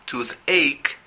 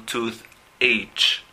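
First: Toothache said as "toothek", ch as a hard k; pronunciation demo. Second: Tooth H with the ch spoken as a separate sound; wrong pronunciation. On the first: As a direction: toothache ending on a k sound. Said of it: "la pronunciación es toothache". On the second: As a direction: tooth H broken apart, the wrong way. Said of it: "no tooth H". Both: Shown as a demonstration.

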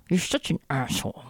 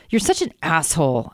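First: Soft, clenched through gritted teeth. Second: Said in the usual way. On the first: Pretend. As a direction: spit it out with jaw locked. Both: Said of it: "I say through gritted teeth".

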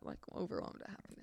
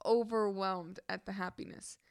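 First: Hushed retake of an awkward phrase; muttered self-correction, whispered; embarrassed whisper. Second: Said in the usual way. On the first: Real, not acted. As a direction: whisper it under your breath, sheepishly. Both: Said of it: "oh, that was so bad to say that".

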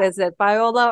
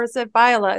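First: "Viola" said vee-OH-la. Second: "Viola" said VY-uh-la, middle swallowed. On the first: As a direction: say Viola with an "oh" in the middle. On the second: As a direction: say Viola starting like "vie". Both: Shown as a demonstration. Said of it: "is it Viola or is it Viola?".

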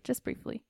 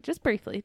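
First: Breathy whispered aside. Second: Said in the usual way. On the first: Shown as a demonstration. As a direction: whisper it softly. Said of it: "Just briefly. (repeat)". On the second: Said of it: "Just briefly. (repeated whispered)".

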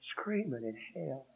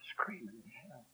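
First: Said in the usual way. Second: Whispered, dying away; hushed repetition trailing off. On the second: Acted. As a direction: let the last repeat fall to a whisper. Repeat fades to whisper.

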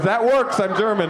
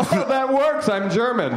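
First: Cheerfully pleased with himself, a bit higher; jovial. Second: Hammed-up cheery, much higher and brighter; mock his breezy pride in being German; jovial. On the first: Retold or imitated. Audience member answering the comic, jovially. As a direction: say it like being German is great news. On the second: Comic mocking the German guy's answer, extra jovial. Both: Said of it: "don't be that jovial about it".

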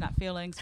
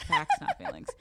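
First: Said in the usual way. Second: Squeaky sarcastic slogan repeat; high mock slogan. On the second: Shown as a demonstration. Co-host mocking the slogan in a high squeak. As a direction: jump way up and chant it. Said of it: "repeated slogan".

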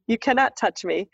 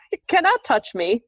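First: Steady, firmer repeat of the warning; firm refusal. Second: High, giggly no, you're not allowed; laughing while shooing him off; laughing refusal. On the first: Me to the ghost, a firm steady repeat. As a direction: set the boundary plainly. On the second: Me to the ghost, a high laughing refusal. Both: Retold or imitated.

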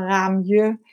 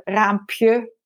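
First: "raamje" said slowly, with no p; faulty diminutive. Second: "raampje" said slowly, with the p sounded; correct diminutive. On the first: Linguist quoting learners' wrong diminutive, carefully pronounced. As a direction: draw out "raamje", m straight into je. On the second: Linguist giving the proper diminutive example, carefully pronounced. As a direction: draw out "raampje" clearly, p before je. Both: Shown as a demonstration.

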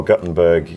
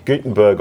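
First: "Gutenberg" said as GUT-en-berg; short u in Gutenberg. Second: "Gutenberg" said as GOO-ten-berg; long oo in Gutenberg. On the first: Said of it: "you say, uh, Gutenberg". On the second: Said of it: "so I say Gutenberg". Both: Shown as a demonstration.

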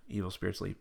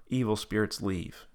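First: Softer, quick echo of the prompt; repeated prayer line. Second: Measured prayer command; prayer leader's line. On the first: Tab repeating the prayer, soft echo. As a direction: repeat it back quietly. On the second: Leading Tab against evil spirits, measured prompt. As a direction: give the line to be repeated. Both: Retold or imitated. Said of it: "repeat after me prayer".

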